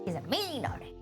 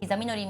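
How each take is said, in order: First: It is said in a put-on Texas accent. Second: It is said in the speaker's ordinary accent.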